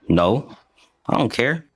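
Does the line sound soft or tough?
soft. The line is said softly, without toughness.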